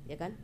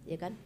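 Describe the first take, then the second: No difference in how they are said.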